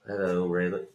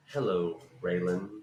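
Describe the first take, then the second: First: A lightly voiced Boyd greeting Raylan; Walton Goggins impression. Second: Goggins obliging a fan with the line; Walton Goggins impression. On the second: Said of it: "And he went".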